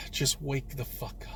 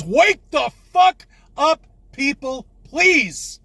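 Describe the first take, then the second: First: Hushed whisper, worn out after the outburst; tired, defeated whisper. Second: High, loud and slow, yelling it at the world; exasperated roar, much higher and louder; furious shout. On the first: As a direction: breathe it under your breath. After shouting, drops to whisper. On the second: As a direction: bellow at everyone, pleading at the end. Ranting at sheeple on camera. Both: Real, not acted.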